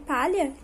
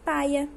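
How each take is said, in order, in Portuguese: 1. A consoante do meio é o som palatal de LH. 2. A consoante do meio é substituída por um som de I. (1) "como em palha" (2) "que fica paia"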